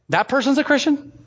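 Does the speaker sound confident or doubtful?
doubtful. It sounds doubtful and questioning. The listener doubts the person is really a believer. "they don't say"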